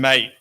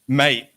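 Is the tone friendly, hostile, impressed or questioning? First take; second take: hostile; impressed. First: It sounds cold and hostile. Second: It sounds impressed and admiring. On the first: I don't like you. "mate is I don't like you" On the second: Congratulations. "mate is like congratulations"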